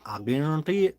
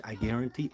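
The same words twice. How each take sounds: First: Higher-pitched put-on Southern twang; Southern accent. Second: Said in the usual way. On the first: Shown as a demonstration. Vlogger promising viewers new footage, put-on Southern accent. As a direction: lean into a Southern "guarantee". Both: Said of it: "Just doing my Southern accent".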